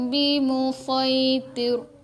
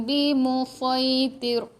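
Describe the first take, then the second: No difference in how they are said.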